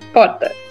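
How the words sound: Said in a São Paulo city accent. "Em São Paulo, capital, que é de onde eu sou... eu falo porta"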